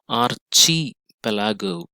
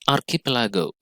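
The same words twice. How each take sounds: First: The middle sound is said like 'ch'. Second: The middle sound is said like 'k'. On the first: The speaker calls it wrong. "It is not chi" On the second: The speaker calls it right. "sometimes it is pronounced as k. That is how it is pronounced here"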